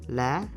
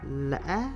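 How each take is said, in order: First: The pitch is raised on the syllable. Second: The pitch rises to the highest level. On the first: "Now is acute. ... Raise your voice a little bit" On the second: "this tone gives the highest rising pitch among the six tones"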